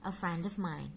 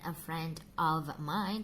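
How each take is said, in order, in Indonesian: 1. 'Of' diucapkan lemah dengan vokal tereduksi. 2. 'Of' diucapkan penuh dengan vokal yang jelas. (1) "tapi always" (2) "Jarang sekali mereka mengucapkan dengan"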